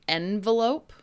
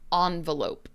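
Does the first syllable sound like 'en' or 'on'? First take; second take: en; on. First: The first syllable sounds like 'en'. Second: The first syllable sounds like 'on'. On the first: "en, envelope" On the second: "on, envelope"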